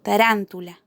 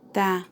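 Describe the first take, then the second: First: Said in the usual way. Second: "tarántula" as ta - RÁN - tu - la, long pauses between; syllable by syllable. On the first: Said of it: "Tarántula es una palabra que se acentúa". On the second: Shown as a demonstration. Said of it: "en la antepenúltima sílaba". ("tarántula" sílaba por sílaba, con pausas)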